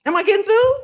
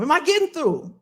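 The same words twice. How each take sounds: First: THROUGH swoops up high and loud; rising question. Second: THROUGH drops at the end of the question; falling question. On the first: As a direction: push it higher and louder, rising on THROUGH. Repeats it higher, rising tune. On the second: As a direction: ask it firmly, letting THROUGH fall. First asking, falling tune. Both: Real, not acted.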